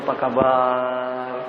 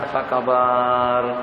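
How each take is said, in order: First: It is said in a warm, deferential tone. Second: It is said in an offhand, casual tone. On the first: The person addressed has high status. "nada suara kita sudah berbeda pada waktu kita menyahut seruan daripada Tan Sri" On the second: The person addressed has low status. "Atau juga kepada driver kita"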